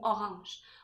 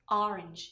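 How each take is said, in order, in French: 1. Il se prononce à la française. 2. Il se prononce à l'anglaise. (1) "le mot orange" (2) "En anglais, ça dit orange"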